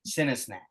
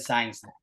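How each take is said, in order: First: The first part sounds like 'sin-ee'. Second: The first part sounds like 'sign'. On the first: The speaker calls it right. "You got it" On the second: The speaker calls it wrong. "because I said Sign Snack"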